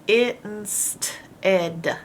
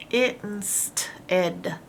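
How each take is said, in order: Both takes have the same delivery.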